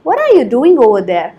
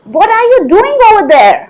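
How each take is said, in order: First: It is said in a calm, neutral tone. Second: It is said in an angry tone.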